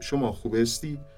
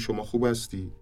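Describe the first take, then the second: First: It is said in an Isfahan accent. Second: It is said in a Tehran accent. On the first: "تو لهجه اصفهانی میشه ... با کسره گفته میشه و یک ریتم، یک آهنگ" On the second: "ما به لهجه تهرانی میگیم"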